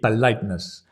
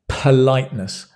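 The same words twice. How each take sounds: First: The P is soft, without a puff of air. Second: The P is released with a strong puff of air. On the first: The speaker calls it wrong. "In many languages, it would be politeness" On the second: The speaker calls it right. "But in English, politeness"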